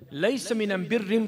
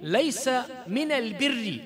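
First: The article is said with an m sound. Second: The article is said with an l sound. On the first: It follows the dialect of the tribe being answered. "he answered them in their dialect" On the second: It follows the standard form of the language.

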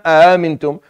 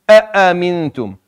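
First: The glottal stops are weak and not fully pronounced. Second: Both glottal stops are pronounced fully and heavily. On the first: The speaker calls it wrong. "So it's not" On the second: The speaker calls it right. "you offer it its full enunciation"

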